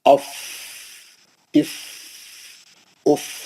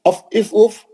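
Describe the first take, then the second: First: The syllables are said slowly with pauses. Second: The syllables are rushed together quickly. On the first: The speaker calls it right. "रुकते हुए, ठहरते हुए, आराम से" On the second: The speaker calls it wrong. "ऐसा नहीं"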